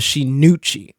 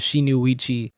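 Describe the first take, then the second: First: The name ends in 'uchi', said with emphasis. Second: The name ends in 'uichi', with an extra sound. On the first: The speaker calls it right. "I put so much emphasis on the Uchi part" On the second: The speaker calls it wrong. "I've been pronouncing it as"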